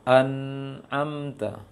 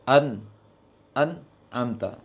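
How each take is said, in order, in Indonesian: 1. Bunyi N membiarkan sedikit suara mengalir. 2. Bunyi N terputus dan terhenti.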